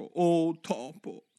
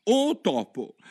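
First: "Oh topo" drawn out very slowly, "Oh" held long; formal address. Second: "Oh topo" called quick and higher; a quick bright hail; eager call. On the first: Alice tries the proper way to hail a mouse, slow and ceremonial. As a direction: stretch "Oh topo" like a solemn salutation. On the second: Alice first calls out to the mouse, brisk. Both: Acted. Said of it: "il modo più appropriato di rivolgersi a un topo".

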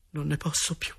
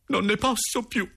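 First: Softer, higher sigh of exhaustion; weary despair. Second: Very high-pitched desperate cry; desperate outburst. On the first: Boy alone in his room, quietly despairing. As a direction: say it quietly, at the end of endurance. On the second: Boy alone in his room, crying out in despair. Despairing diary, repeated more strongly. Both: Acted.

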